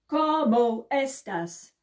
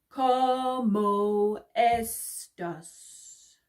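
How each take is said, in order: First: It is said at the fastest pace. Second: It is said at a slower pace.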